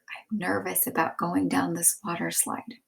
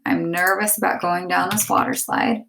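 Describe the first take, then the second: First: Much softer, nervous hush; whispered. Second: Said in the usual way. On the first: Shown as a demonstration. Teacher reading Jasmine's nervous whisper, soft. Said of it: "Jasmine whispered". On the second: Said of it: "put the quotation marks around what she said again".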